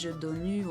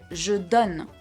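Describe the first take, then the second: First: The word ends with an extra vowel sound. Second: The word ends on the N sound. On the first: The speaker calls it wrong. "I didn't say" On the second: The speaker calls it right. "I stopped at the N sound"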